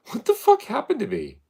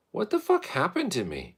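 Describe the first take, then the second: First: Very high, loud exclaimed question; loud high-pitched disbelief; exaggerated incredulity. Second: High exclaimed question; high, baffled outburst at normal volume; incredulous. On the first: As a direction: blurt it louder and much higher, baffled. Repeats it louder after laughing. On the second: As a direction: ask in bafflement, pitched up. Exclaims over his trauma. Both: Real, not acted.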